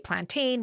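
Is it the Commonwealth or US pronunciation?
US. It is said the US way.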